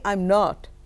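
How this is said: It is said in a firm, commanding way. The speaker is absolutely certain about refusing. "The second one, you know I'm very clear, almost dictatorial"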